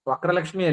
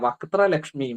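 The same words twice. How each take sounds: First: The first part is said without a t. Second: The first part is said with a t. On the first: The speaker calls it wrong. "ചിലർ തെറ്റായിട്ട് ചൊല്ലും" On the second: The speaker calls it right. "മുഖമാണ് പറയുന്നത് അല്ലേ?"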